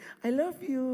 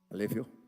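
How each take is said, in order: First: It is said warmly, with lively feeling. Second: It is said flatly, with no feeling. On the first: The love sounds real and heartfelt. The speaker calls it right. "tapi bilang ekspresi" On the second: The love sounds empty and unconvincing. The speaker calls it wrong. "tanpa ekspresi"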